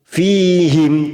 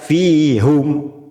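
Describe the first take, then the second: First: The vowel after the h is 'ee'. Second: The vowel after the h is 'oo'. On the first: The speaker calls it right. "Fihim tidak dibaca fihum" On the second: The speaker calls it wrong. "tidak dibaca fihum"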